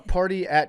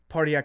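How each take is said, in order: First: The two words are said clearly apart. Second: The two words are run together like one. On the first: "Two words" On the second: "you said it as one word"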